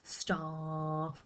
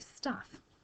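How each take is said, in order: First: The vowel is drawn out long. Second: The vowel is short and quick. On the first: The speaker calls it wrong. "We don't say staff" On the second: The speaker calls it right. "very short vowel sounds"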